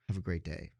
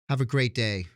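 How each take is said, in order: First: It is said in a cold, negative tone. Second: It is said in a warm, positive tone. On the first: The reader takes it as a dismissive goodbye. "does that mean like goodbye? I'm not going to see you again" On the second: The sender sincerely wishes them well. "you're saying it positive because you're sending it"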